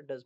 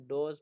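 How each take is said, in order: First: डज with an uh sound; uh vowel. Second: डोज with an oh sound; wrong oh vowel. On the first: Shown as a demonstration. Teacher correcting learners' reading of does, डज with uh. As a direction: say डज with uh, not oh. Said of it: "वहाँ पे डज पढ़ेंगे". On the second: Retold or imitated. Teacher quoting learners' reading slip, डोज with oh. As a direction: say डोज with oh instead of uh. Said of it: "उसको आप डोज पढ़ रहे थे".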